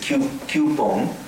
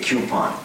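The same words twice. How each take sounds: First: It is said with a Japanese pronunciation. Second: It is said with a British pronunciation. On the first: "In Japanese, coupon" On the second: "In England, they say coupon"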